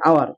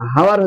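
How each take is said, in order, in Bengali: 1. শব্দটি স্বরধ্বনি দিয়ে শুরু হয়, কোনো h ধ্বনি নেই। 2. শব্দটি h ধ্বনি দিয়ে শুরু হয়। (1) "কি হচ্ছে? আওয়ার।" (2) "হাওয়ার হচ্ছে না"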